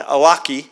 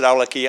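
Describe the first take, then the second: First: The name is said the usual American way. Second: The name is said the Yemeni family's way. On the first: "usually pronounced in, in this country, in the media" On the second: "in Yemen, his family and so on pronounce it"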